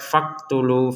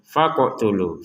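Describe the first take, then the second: First: The q sound is plain, with no bounce. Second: The q sound is released with a bounce. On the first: The speaker calls it wrong. "jangan sekedar faqtulu, faqtulu, gak ada pantulannya kan?" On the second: The speaker calls it right. "kita bacanya dengan pantulan ya"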